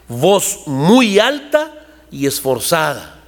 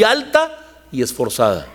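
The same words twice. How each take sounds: First: Each word of "Voz muy alta y esforzada" drawn out slowly; slow emphatic repeat. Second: Said in the usual way. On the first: Shown as a demonstration. Preacher repeating the dictionary definition, slow and drawn out.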